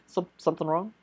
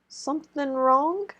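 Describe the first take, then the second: First: It is said with a nervous stutter. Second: It is said smoothly, without stuttering.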